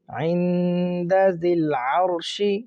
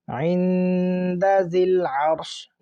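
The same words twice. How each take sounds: First: The last word ends with a short vowel. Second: The last word ends on a bare consonant.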